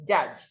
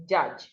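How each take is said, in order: The two takes are said the same way.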